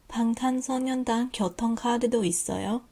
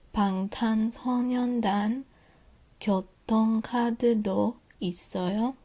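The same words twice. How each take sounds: First: It is read more quickly. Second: It is read slowly.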